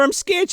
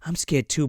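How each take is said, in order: First: High-pitched little scared voice; mock frightened boy. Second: Softer, matter-of-fact retold reply; imitated calmer girl. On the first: Boy admitting fear to the girl, high mock fright. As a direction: squeak it as a pretend scaredy-cat. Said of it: "He's like". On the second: Girl answering the frightened boy, soft understated reply. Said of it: "She's like".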